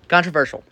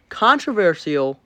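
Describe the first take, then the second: First: The word is said in its usual spoken form. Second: The word is sounded out as it is spelled. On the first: The speaker calls it right. "I know you're right" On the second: The speaker calls it wrong. "That's how it's spelled. So that's how I pronounce it"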